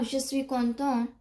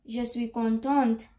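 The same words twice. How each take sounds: First: "content" ending without any T sound; silent final T. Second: "contente" closed on an audible T; final T pronounced. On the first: Teacher comparing two French forms, final T silent. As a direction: drop the T at the end of "content". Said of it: "why I didn't pronounce it". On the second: Teacher comparing two French forms, final T sounded. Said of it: "I pronounced the T". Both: Shown as a demonstration.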